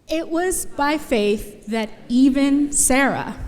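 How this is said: It is read in a nice, gentle tone.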